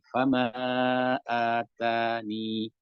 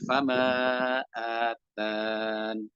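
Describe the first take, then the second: First: The last word ends with a short 'ni' sound. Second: The last word ends on a held 'n' sound. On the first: The final ya is kept when stopping. "jika masih ada ya-nya maka menjadi mat tabi'i" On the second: The final ya is dropped when stopping. "ketika dibuang maka menjadi fama atan"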